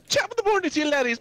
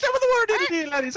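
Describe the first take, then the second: First: High, mock Irish YouTuber intro; sing-song Irish welcome, way up high; mock Irish greeting. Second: Outdo the last one's Irish hello; hammed-up Irish welcome, pitched way up; mock Irish greeting. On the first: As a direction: ham up a cheery Irish hello. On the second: Copying the Irish greeting intro.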